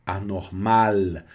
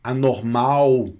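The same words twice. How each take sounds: First: Anormal said slowly with a clear final L; slow correct demo. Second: Anormal said slowly, final L not turned to U; slow correct demo. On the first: Teacher repeating anormal slowly. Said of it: "não tem anormal". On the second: Teacher insisting on the final L. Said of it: "no finaliza com U". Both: Shown as a demonstration.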